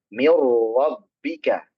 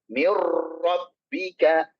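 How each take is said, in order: First: The r is trilled lightly and gently. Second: The r is trilled hard and coarsely. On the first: The speaker calls it right. "Yang benar getarannya halus atau lembut" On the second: The speaker calls it wrong. "Jangan sampai getarannya kasar seperti ini"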